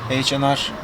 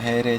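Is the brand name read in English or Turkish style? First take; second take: English; Turkish. First: The letters are read in English style. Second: The letters are read in Turkish style.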